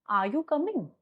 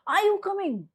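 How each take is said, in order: First: Restrained lower-pitch version of the question; low pitch demo. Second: High, forceful demonstration question; high pitch demo. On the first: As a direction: ask it without pushing the voice. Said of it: "this is my low pitch sound". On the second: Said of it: "This is my high pitch sound". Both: Shown as a demonstration.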